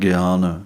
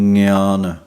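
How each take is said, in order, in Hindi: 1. यह साधारण कठोर 'g' ध्वनि से शुरू होता है। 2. यह नासिक 'ng' ध्वनि से शुरू होता है। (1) "ਇੱਕ ਤਾਂ ਅਸੀਂ ਬੋਲਦੇ ਹਾਂ" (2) "ਸਿਰਫ ਉਚਾਰਨ ਇਸ ਅੱਖਰ ਦੇ ਨਾਲ ਬਣਦਾ ਹੈ"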